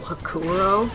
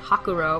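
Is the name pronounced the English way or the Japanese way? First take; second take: English; Japanese. First: The name is said with English-style pronunciation. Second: The name is said with Japanese-style pronunciation. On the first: The speaker calls it right. "in the dub, they call him General Hakuro" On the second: The speaker calls it wrong. "If you suddenly said Hakuro or whatever, it would be kind of weird"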